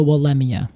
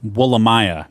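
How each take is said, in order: First: "Wollemia" stressed on "LEM", ending "ee-uh"; scientific-name pronunciation. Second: "Wollemia" ending like "my-uh"; teasing mispronunciation. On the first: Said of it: "use the scientific name Wollemia". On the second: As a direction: tweak "Wollemia" to rhyme with "Maya". Co-host teases with altered ending. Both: Shown as a demonstration.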